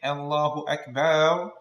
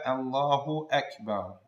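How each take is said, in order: First: The vowel after the b is drawn out. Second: The vowel after the b is short. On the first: Allah is big drums. The speaker calls it wrong. "extend after the Ba in Akbar" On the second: Allah is the greatest. The speaker calls it right. "make sure to pronounce the Hamza"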